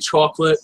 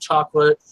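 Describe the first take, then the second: First: The word is said with a New York accent. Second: The word is said with a standard accent. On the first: "I say chocolate" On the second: "instead of"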